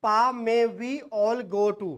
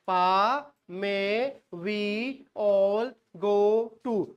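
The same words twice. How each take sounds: First: Second mnemonic chanted slowly; chanted, drill it word by word. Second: Each word set apart with pauses; teacher drilling with pauses; broken into beats. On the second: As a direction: pause between every word. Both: Shown as a demonstration. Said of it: "दूसरी याद करनी है".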